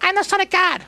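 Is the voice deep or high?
high. It is said in a high, squeaky voice.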